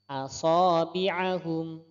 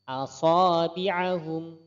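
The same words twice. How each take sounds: No difference in how they are said.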